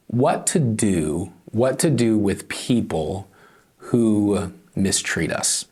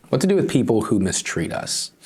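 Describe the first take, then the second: First: Each phrase spaced out and slowed right down; slow it down so the lesson sinks in for the congregation; slow and deliberate. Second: Said in the usual way. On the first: Shown as a demonstration. Pastor slows to stress his lesson, unhurried.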